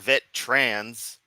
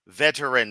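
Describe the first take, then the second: First: The middle vowel is dropped, giving two syllables. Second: The middle vowel is kept, giving three syllables. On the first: The speaker calls it wrong. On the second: The speaker calls it right. "There's an E in there"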